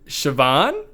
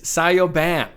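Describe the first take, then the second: First: The name is said as one smooth word. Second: The name is said as separate parts, 'Sayo Ban'. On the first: The speaker calls it right. "no, you pronounce it Siobhan" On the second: The speaker calls it wrong. "an interesting name that I did not know how to pronounce"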